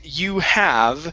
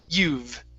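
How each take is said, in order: First: It is said as two separate full words. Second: It is said as one contracted syllable. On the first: The speaker calls it wrong. "breaking this apart and saying you have" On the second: The speaker calls it right. "the word is you've"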